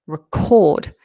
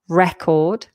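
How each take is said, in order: First: The stress is on the second syllable. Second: The stress is on the first syllable. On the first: It is a verb, an action. "the verb record has the stress um, on the second syllable" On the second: It is a noun, a thing. "The noun has the stress at the beginning"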